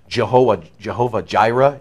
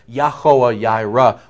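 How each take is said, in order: First: The name starts with a J sound. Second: The name starts with a Y sound. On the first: The speaker calls it wrong. "you know Jehovah is wrong" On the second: The speaker calls it right. "As a pronunciation goes"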